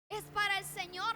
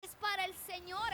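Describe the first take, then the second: First: Es para el Señor pushed out louder, "para" lifted; louder emphatic repeat. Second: Said in the usual way. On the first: Real, not acted. Pastor hammering the point home to the congregation, louder and emphatic. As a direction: press harder on "para" the second time.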